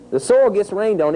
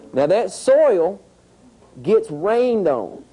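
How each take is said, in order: First: Said in the usual way. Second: Very slow, every word drawn out; slow emphasis. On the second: Shown as a demonstration. Teacher slowing down so the class follows, very slow. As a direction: spell out "Now that soil gets rained on" word by word. Teacher stressing the soil step.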